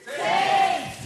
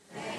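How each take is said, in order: First: It is said with more gusto and energy. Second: It is said with ordinary energy.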